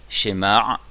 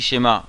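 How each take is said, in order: First: Shemar, drawn out with a voiced throat ayin ending; ayin pronounced. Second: Shema ending on a bare open a; ayin dropped. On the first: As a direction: sound the final ayin in "shemar". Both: Shown as a demonstration. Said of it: "on prononce bien le aïn".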